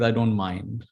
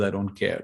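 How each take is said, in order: First: Tolerant. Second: Dismissive. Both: Shown as a demonstration. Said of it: "there's a very big difference".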